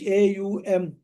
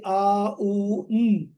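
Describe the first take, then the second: First: A, U, M spelt out as ay, you, em; A, U, M named letter by letter in English; English letter names. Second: A, U, M as separate sounds: ah, oo, mm; A, U, M voiced as pure sounds, not letter names; Sanskrit sounds of AUM. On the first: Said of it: "in English". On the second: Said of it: "especially when pronounced as". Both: Shown as a demonstration.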